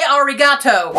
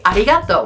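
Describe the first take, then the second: First: The R is a hard English R. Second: The R is a light, quick flap. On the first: The speaker calls it wrong. "Do not say arigato!" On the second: The speaker calls it right. "it's lighter, it's quicker, like when they say arigato"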